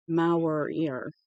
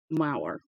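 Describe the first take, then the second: First: "Maurier" with an added ee-er ending; unsure name pronunciation. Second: "Mauer" in two syllables, like "MOW-er", dropping at the end; unsure name pronunciation. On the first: Reader retrying an author's surname, "Maurier" sounded out as "MOW-ree-er". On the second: Reader guessing at an author's surname, "Mauer" rhyming with "power". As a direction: say "Mauer" to rhyme with "power", falling. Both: Shown as a demonstration. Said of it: "I don't know how to say it".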